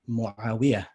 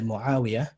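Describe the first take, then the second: First: The stress falls on the 'wi' syllable. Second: The stress falls on the 'a' syllable. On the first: This is how Egyptians say it. "So the stress is on the wiyah instead of the, the ain and the alif" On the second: This is how most Arabs say it. "most Arabs would say Muawiyah"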